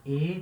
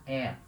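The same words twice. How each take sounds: First: E said as closed "ay" sound. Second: E said as open "eh" sound. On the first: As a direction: pronounce E with a narrow, closed vowel. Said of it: "Em alguns lugares vai se pronunciar E". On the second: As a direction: pronounce E wide open, as in "bet". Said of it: "Em outros lugares vai pronunciar E". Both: Shown as a demonstration.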